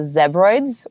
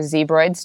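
First: It is said with a British English pronunciation. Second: It is said with an American English pronunciation. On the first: "depending on if you're, you know, British English" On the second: "or American English"

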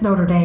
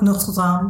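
First: It is said with a Texan accent. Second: It is said with a French accent. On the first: "I can't help my Texan-ness" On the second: "They said it with a French accent"

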